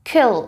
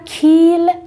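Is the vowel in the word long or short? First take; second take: short; long. First: The vowel is a short i sound. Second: The vowel is a long ee sound. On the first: The speaker calls it right. "این ای کوتاه" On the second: The speaker calls it wrong. "لطفاً kill نخونید"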